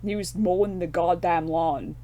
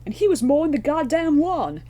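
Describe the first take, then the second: First: Said in the usual way. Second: Much higher and louder, hammed-up deadpan line; quoting film delivery. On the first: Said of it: "the line is". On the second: Quoting the fire guy's line from the film, hammed up high and loud. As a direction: sell the line like the actor did. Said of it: "I thought the delivery was rather nice".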